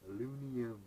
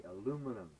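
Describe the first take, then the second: First: "alunium", dropping the middle M syllable; mispronounced echo. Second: "aluminum" modeled clearly with all four syllables; correct pronunciation. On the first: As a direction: botch it as "alunium", a-LOON-ee-um. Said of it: "he still said it the same way". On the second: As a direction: teach "aluminum" as a-LOO-mi-num, for repeating. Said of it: "Repeat after me". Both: Retold or imitated.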